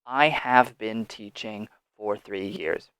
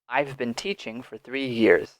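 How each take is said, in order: First: 'I have' is said in full, unreduced. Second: 'I have' is contracted, with a reduced vowel. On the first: "You do not have to use these contractions" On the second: "practice that more rapid pronunciation"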